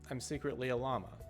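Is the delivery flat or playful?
flat. The voice is flat with no change in tone. The speaker hides that it is a joke.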